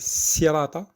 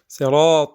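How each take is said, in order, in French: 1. Le son du s est léger et simple. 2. Le son du s est lourd et emphatique. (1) "c'est pas un sirata, c'est pas un sin" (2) "c'est pas un sin, mais un sad"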